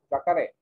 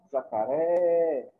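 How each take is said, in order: First: Said in the usual way. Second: "jacaré" with a very long final RÉ; stretched stressed syllable. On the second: Shown as a demonstration. Teacher demonstrating the tonic syllable to the class, drawing out RÉ in "jacaré". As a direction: say "jacaré" slowly, holding RÉ. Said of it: "que eu falei por mais tempo foi o ré".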